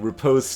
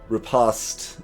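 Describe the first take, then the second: First: The word is said with an American pronunciation. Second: The word is said with a British pronunciation. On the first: "more uh, American" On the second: "more uh, British"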